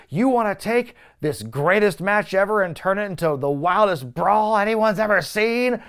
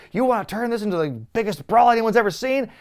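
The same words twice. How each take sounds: First: Higher, louder hype pitch, stretching the end; the host imitates Cena hyping the match to the crowd like a carnival barker. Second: High, loud showman's pitch that rises on brawl; carnival barker. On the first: Imitating Cena selling the match like a carnival barker. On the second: Retold or imitated. The host retells Cena selling the brawl to the fans like a barker. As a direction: sell it to the crowd like a fairground barker. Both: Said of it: "Cena is full-on carnival barker".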